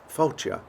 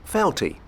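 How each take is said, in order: First: It is said with Gaelic vowels and ending. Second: It is said like English 'felty'. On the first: The speaker calls it right. "it's pronounced Fáilte" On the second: The speaker calls it wrong. "It's not"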